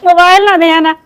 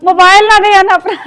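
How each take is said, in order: First: Repeating the warning through a laugh; giggling echo of the warning. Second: Raised, firm warning about the phone; a warning said louder before the laugh. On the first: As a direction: laugh while saying it again. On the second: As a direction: call it out like a firm reminder. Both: Real, not acted.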